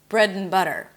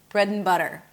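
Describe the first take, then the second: First: The words are linked with a reduced 'and'. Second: The words are linked with a reduced 'and'.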